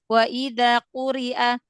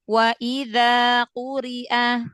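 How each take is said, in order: First: The long vowel is cut short and rushed. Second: The long vowel is held for its full length. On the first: The speaker calls it wrong. "belum selesai" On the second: The speaker calls it right. "Selesaikan matobi'inya dua harokatnya"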